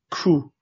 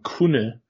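First: The word is cut short to one syllable. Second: The word is said in full with two syllables. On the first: "that's a huge difference" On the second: "going from kune"

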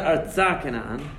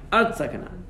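First: Artza is stressed on its last syllable. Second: Artza is stressed on its first syllable. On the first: The speaker calls it wrong. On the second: The speaker calls it right. "He says it's always mil el"

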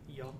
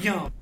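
First: It is said flatly, without enthusiasm. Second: It is said with enthusiasm and energy.

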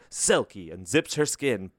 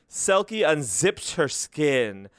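First: It is read in a dramatic movie-trailer voice. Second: It is read in a plain, ordinary voice.

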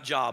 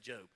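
First: The vowel sounds like in the word 'job'. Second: The vowel sounds like in the word 'robe'. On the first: The speaker calls it wrong. "I know some of you thought that's how it's said" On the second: The speaker calls it right. "but it's actually Job"

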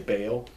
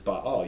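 First: The vowels merge into one syllable. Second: Both vowels are said as separate syllables. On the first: "we say Baal. And that's fine" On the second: "the word is Baal. You say both vowels"

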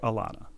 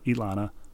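First: The name begins with an A vowel sound. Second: The name begins with an E vowel sound. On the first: "or an A" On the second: "pronounced as if it started with an E"

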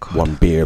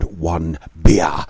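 First: It is said at normal loudness and pace. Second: It is said louder and more slowly.

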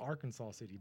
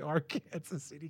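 First: The name is said like the state, ending 'kansaw'. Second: The name is said as 'Ark' plus 'Kansas'. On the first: The speaker calls it wrong. "it's spelled Arkansas City, but don't say that. They get mad at you" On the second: The speaker calls it right. "So you got to say Ark, Kansas City"

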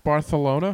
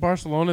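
First: The c is said as a th sound. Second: The c is said as an s sound. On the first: The speaker calls it right. "you needed us to put that TH in there" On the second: The speaker calls it wrong. "Isn't Barcelona"

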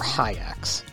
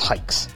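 First: The name sounds like "hi-acks". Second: The name sounds like "hikes". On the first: The speaker calls it wrong. "Not hikes or hacks or hi-acks" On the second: The speaker calls it right. "It's hikes"

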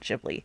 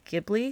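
First: It is said in an American way, dropping a vowel. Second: It is said in an Italian-sounding way. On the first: "the Americanized version of that is just dropping that second I" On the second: "Because that's more Italian"

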